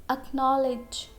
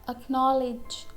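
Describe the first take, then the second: No difference in how they are said.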